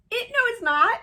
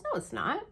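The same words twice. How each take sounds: First: Very high, loud squeal of denial; mock-wail your disbelief, loud and squeaky; dismayed protest. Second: Higher-pitched quoted denial at normal volume; retold contradiction. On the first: Her own dismayed protest, retold. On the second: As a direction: voice the framer's mild protest. Framer retold disputing the verdict.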